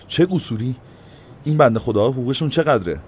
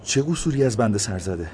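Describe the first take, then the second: First: Indignant challenging «چه قصوری»; indignant echo. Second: Higher, fearful, timid question; timid fearful «چه قصوری»; trembling. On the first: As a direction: throw «چه قصوری» back sharply. Mayor throws the words back. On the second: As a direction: ask nervously, scared. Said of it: "با ترس و لرز گفت". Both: A narrator's reading.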